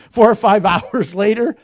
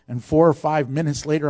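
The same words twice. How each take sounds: First: Four corrected louder, rising; stress on four. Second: Said in the usual way. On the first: Real, not acted. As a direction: fix the slip, hitting four. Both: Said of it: "No, four".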